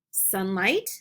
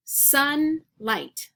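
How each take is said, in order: First: Said in the usual way. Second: SUN, pause, LIGHT: two separate parts; word in parts. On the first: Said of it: "then we'll blend the word together". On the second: Shown as a demonstration. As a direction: say "Sunlight" broken in two with a clear gap. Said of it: "I'm gonna say each word part".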